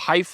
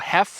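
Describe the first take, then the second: First: The word has an 'eye' vowel sound. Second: The word has a short 'eh' vowel sound. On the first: "like Michelle Heifer" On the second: "like Hugh Hefner"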